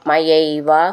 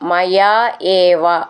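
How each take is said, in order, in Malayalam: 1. ഈ വാക്കുകൾ ഒന്നായി ചേർത്താണ് പറയുന്നത്. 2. ഈ വാക്കുകൾ വേറെവേറെയായിട്ടാണ് പറയുന്നത്.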